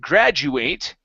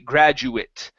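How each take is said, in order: First: The final syllable is said like 'ate'. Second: The final syllable is said like 'it'. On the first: It is used as a verb. "when it is a verb, we do pronounce the eight" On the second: It is used as a noun. "it's uh, pronounced as an it sound"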